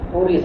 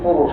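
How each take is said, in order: First: The last consonant is a plain s sound. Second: The last consonant is an sh sound. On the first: "ಸಾ ಅಂತ ಅನ್ನೋದನ್ನ" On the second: "ಶಾ ಅಂತ ಹೇಳಿದ್ರೆ ಉಚ್ಚಾರಣೆಯ ಸೌಲಭ್ಯ"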